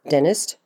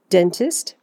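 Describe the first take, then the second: First: The T after N is dropped. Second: The T after N is clearly pronounced.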